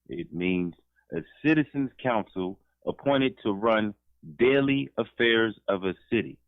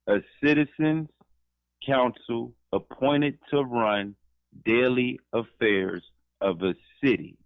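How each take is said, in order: First: It is read at a normal pace. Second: It is read slowly.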